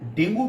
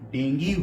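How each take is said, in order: First: The word ends with an 'oo' vowel. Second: The word ends with an 'ee' vowel.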